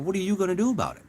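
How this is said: It sounds dismissive and challenging.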